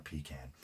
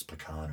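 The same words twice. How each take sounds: First: "pecan" as PEE-can; long EE at the start of "pecan"; second pronunciation option. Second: "pecan" as puh-KAHN; first pronunciation option. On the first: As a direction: stress the first syllable of "pecan", PEE-can. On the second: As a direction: stress the second syllable of "pecan", puh-KAHN. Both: Shown as a demonstration. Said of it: "whether it's pecan or pecan".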